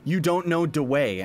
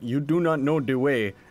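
First: It is said in a plain American accent. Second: It is said in an imitated Ugandan accent. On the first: "instead of where I heard it" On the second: "trying to do like a Ugandan accent"

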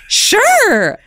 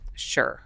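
First: It is said cheerfully, with enthusiasm. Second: It is said flatly, without enthusiasm.

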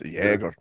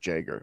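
First: The name is pronounced the German way. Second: The name is pronounced the English way. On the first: The speaker calls it wrong. "You're being too German there" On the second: The speaker calls it right. "that's how you pronounce your name"

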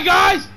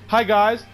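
First: The greeting is said too loudly. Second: The greeting is said at a quieter volume.

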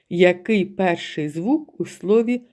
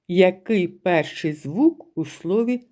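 Both takes have the same delivery.

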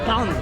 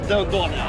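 First: It is said with one syllable, 'dun'. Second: It is said with two syllables, 'doh-neh'. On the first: The speaker calls it right. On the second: The speaker calls it wrong.

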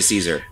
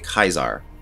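First: The name begins with an S sound. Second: The name begins with a K sound. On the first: This is the everyday pronunciation. "normal people just say Caesar" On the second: This is the original Latin pronunciation. "try to say it the original like Latin way"

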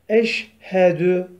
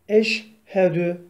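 No difference in how they are said.

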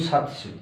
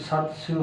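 The two takes are said the same way.

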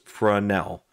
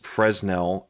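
First: The word is said with French-style pronunciation. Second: The word is said with English-style pronunciation. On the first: The speaker calls it right. "It's a French word, It's pronounced Fresnel" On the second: The speaker calls it wrong. "it's not pronounced Fresnel"

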